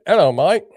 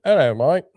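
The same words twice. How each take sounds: First: A put-on British accent, slipping Australian; clipped attempt at a British accent that sounds Australian; mock British greeting. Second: Second go at a British accent; playful retry of a posh British hello; mock British greeting. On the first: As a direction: try a British hello, landing Aussie. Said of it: "That sounded more Australian than British". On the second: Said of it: "I could throw a spot of tea in there". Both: Shown as a demonstration.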